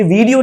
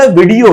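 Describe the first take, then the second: First: "वीडियो" with a long ee; wrong pronunciation. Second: "वीडियो" with a short first i; quick first vowel in "वीडियो"; correct pronunciation. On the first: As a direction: say "वीडियो" as VEE-dee-yo. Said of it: "वीडियो नहीं होता". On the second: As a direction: say "वीडियो" as VID-ee-o. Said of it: "वीडियो होता है". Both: Shown as a demonstration.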